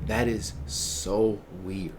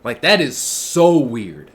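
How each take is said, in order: First: Low, soft, slow verdict; quiet disbelief. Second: Slow, punched "so weird"; emphatic disbelief. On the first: Streamer judging the girl's behaviour, low quiet disbelief. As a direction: say it slowly, pitched down and hushed. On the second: Streamer repeating the verdict on her, slow emphatic "so weird". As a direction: lean hard and slowly on "so weird". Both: Real, not acted.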